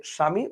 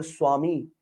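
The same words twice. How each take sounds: First: স্বামী as "shami"; Bengali pronunciation. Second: স্বামী as "swami"; Indian-style "swa" sound in স্বামী; Indian pronunciation. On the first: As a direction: start স্বামী with sh, no w. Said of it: "আমরা বলি". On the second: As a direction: start স্বামী with s plus a w glide. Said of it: "ওরা বলে". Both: Shown as a demonstration.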